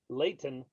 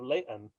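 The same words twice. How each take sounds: First: The middle T is clearly sounded. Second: The middle T is dropped, not clearly sounded. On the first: Others took it as trying to sound posh. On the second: This is how the locals said it.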